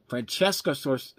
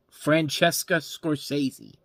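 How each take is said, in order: First: "Francesca Scors-" slow, cut off midway through the surname; stumbling on the name. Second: "Francesca Scorsese" spelled out slowly, syllable by syllable; careful slow pronunciation. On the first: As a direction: trip over "Scors-" and stop short. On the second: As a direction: finally land "Scorsese" with deliberate care. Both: Real, not acted. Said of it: "why can I not say this name?".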